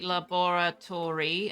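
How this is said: The word is said with a British pronunciation. "British say laboratory"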